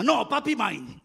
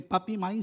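First: Lightly voiced small boy, a bit higher; little boy voice. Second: Said in the usual way. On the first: Pastor voices his son grabbing his leg, lightly childlike. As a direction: play the jealous toddler claiming dad.

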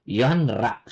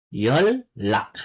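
First: "yonrak" slowly, n then r; wrong spelling pronunciation. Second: "Yolak" lower, with a long double L; correct assimilated pronunciation. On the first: Korean teacher showing what not to say, spelling pronunciation. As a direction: keep n and r apart in "yonrak". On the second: Korean teacher modelling the right form, assimilated pronunciation. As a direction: hold the l in "Yolak", yol-lak. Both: Shown as a demonstration. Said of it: "Not yonrak".

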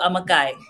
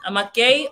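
First: "amakai" pronounced ah-mah-KAI; "amakai" ending in an eye sound, the alternative option. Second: "Amakai" pronounced ah-mah-KAY; "Amakai" ending in an ay sound, offered as an option. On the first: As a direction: say "amakai" with the last syllable rhyming with "sky". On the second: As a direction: say "Amakai" with the last syllable like "kay". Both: Shown as a demonstration. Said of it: "Amakai or amakai?".

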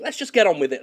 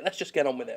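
First: Louder, brisker first take. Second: Quieter take. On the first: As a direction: say it out, punchy. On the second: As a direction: mutter it again softly. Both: Shown as a demonstration.

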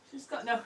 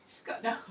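Both takes have the same delivery.

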